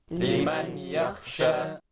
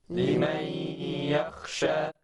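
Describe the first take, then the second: The two takes are said the same way.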